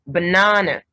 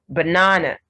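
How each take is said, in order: The two takes are said the same way.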